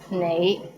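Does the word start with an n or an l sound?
n. The word begins with an n sound.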